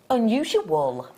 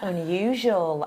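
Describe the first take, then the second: First: Every syllable of the word is said fully. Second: One syllable of the word is dropped, sounding smoother. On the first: "Unusual, I go" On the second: "I'm going to try and use that"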